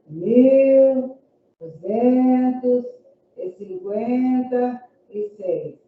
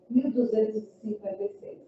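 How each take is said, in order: First: Each part is separated by pauses. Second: It flows without pauses between parts. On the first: The number is broken up to help the listener write it. The speaker calls it wrong. "não é para expandir o número" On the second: The number is said as in ordinary speech. The speaker calls it right. "É para fazer como a gente faz com as palavras"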